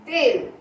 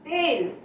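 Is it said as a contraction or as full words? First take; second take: contraction; contraction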